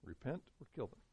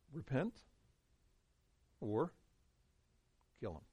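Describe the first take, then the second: First: Repent or kill them, said softer in one breath; quiet repeat. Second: Repent, pause, or, pause, kill them, each word set apart; spaced-out emphasis. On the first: Preacher repeating the leaders' choice, softly and gravely. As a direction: let it sink in, softly. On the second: Preacher spelling out the leaders' two options, words set apart by pauses. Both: Shown as a demonstration.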